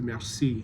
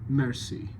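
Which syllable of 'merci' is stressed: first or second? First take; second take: second; first. First: The stress is on the second syllable. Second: The stress is on the first syllable. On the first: The speaker calls it wrong. "where the emphasis is on the second syllable" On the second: The speaker calls it right. "the emphasis is on the first syllable"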